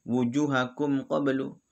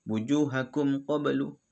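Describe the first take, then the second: The two takes are said the same way.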